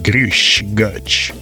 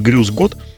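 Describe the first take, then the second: First: It is said with heavy Bavarian hushing sounds. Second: It is said in plain standard German. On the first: "с большим количеством шипящих, так по-баварски" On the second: "это типа"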